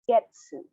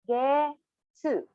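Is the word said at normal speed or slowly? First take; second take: normal speed; slowly. First: It is said at normal speed. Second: It is said slowly, syllable by syllable.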